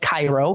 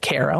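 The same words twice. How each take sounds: First: It is pronounced the way the spelling suggests. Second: It is pronounced the way local people say it. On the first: "which is spelled like Cairo" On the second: "they pronounce it Cairo"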